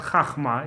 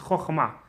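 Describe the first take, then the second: First: The first vowel is an 'a' sound. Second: The first vowel is an 'o' sound. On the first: The speaker calls it wrong. "is not chachma" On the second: The speaker calls it right. "it's chochma"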